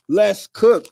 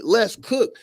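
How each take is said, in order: First: "Let's cook." punched out louder, falling hard on "cook"; loud hype call. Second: Said in the usual way. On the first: Shown as a demonstration. Host hyping his viewers: louder "Let's cook." with a hard fall on "cook". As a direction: shout "Let's cook." like kicking off the show.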